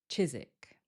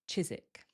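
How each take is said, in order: First: The W sound is left out. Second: The same.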